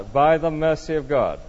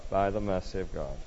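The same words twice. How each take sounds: First: Said in the usual way. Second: Much lower and softer; hushed repeat. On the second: Real, not acted. Preacher echoes the listener's answer to himself, hushed. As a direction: drop to a low, reflective hush.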